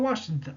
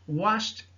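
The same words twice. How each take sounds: First: The ending is not pronounced as a t sound. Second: The ending is pronounced as a t sound. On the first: The speaker calls it wrong. "et non pas washed" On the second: The speaker calls it right.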